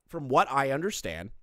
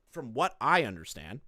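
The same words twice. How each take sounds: First: "what" stressed, phrase falling at the end. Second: "I" stressed, phrase rising at the end. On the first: Streamer explaining hearsay to viewers, stress on "what". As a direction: lean on "what", then let it fall. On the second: Streamer qualifying hearsay to viewers, stress on "I". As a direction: lean on "I" and lift the ending. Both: Real, not acted.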